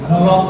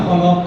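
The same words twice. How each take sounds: Both takes have the same delivery.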